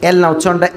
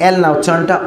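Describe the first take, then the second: Both takes have the same delivery.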